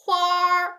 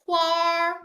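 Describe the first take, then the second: First: It ends with an r sound, Beijing style. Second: The same.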